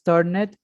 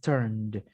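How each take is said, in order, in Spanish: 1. El final se dice como una sílaba extra. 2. El final es solo un sonido d. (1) "no es turned" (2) "Haz como si la e no existiera... como si fuera la d"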